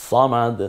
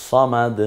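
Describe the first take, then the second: The two takes are said the same way.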